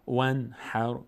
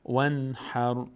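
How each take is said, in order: Both takes have the same delivery.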